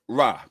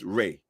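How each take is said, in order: First: The name is said with an 'ah' vowel. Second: The name is said with an 'ay' vowel. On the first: The speaker calls it wrong. "it's not Ra. People pronounce it incorrectly" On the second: The speaker calls it right. "It's Ray"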